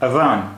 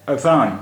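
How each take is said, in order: Both takes have the same delivery.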